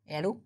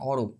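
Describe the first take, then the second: First: The first vowel is an open 'a' sound. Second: The first vowel is a rounded 'o' sound. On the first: The speaker calls it wrong. "অ্যারো না" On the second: The speaker calls it right. "না অরো"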